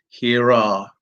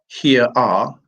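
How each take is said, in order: First: An R sound links the two words. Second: No R sound links the two words. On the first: The speaker calls it right. "in comes the R" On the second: The speaker calls it wrong. "So it's not here are"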